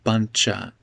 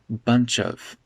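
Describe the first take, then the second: First: Spoken quickly, with 'of' reduced to 'a'. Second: Spoken slower, with 'of' fully pronounced. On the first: It sounds more informal. "if I speak quickly here, I'll say buncha" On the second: It sounds less informal. "If I speak a little slower, I'll make it bunch of"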